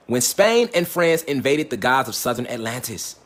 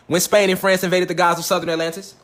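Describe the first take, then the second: First: Slow dramatic. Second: Said in the usual way. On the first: Shown as a demonstration. Teaching line, slowed for emphasis.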